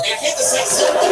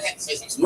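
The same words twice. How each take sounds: First: Laughing it out, higher and louder; amused insistence. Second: Softer, near whisper; understated aside; quiet. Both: Real, not acted.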